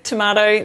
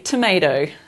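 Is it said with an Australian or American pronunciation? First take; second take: Australian; American. First: It is said the Australian way. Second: It is said the American way.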